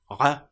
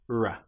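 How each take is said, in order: First: The R is made the German way. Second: The R is made the English way. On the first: "In German, it is normally pronounced R" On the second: "the English version of this"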